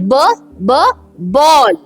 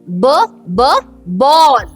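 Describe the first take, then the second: Both takes have the same delivery.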